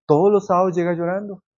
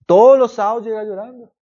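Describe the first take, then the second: First: Said in the usual way. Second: "Todos" hit higher and louder; emphatic repeat. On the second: Retold or imitated. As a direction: stress "Todos los sábados" as a sister's worried complaint. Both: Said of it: "una hermana nos decía".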